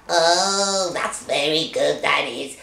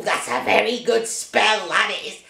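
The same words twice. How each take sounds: First: Low, gloating witch voice; smug witch croon. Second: Low witch voice, pleased with herself; smug witch croon; gloating witch. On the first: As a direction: savour it like a wicked witch. Witch cackling over her spell. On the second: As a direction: purr it like a proud witch. Witch praising her own spell. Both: Acted.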